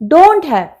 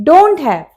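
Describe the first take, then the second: The two takes are said the same way.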